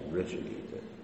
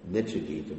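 First: The first syllable has an r sound. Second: The first syllable has no r sound. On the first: The speaker calls it right. "but it's actually Richigita" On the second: The speaker calls it wrong. "Devotees usually pronounce that wrong. They say Nichigita"

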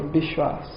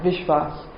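First: It starts with a B sound, Bengali-style. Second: It starts with a V sound.

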